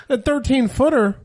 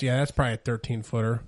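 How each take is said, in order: First: High, loud incredulous echo; mock disbelief. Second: Imitating an unbothered uncle, low and casual; nonchalant. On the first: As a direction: act aghast at the casual answer. Shocked reply to uncle's casual remark. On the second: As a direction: toss it off like it's nothing. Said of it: "my uncle nonchalantly goes".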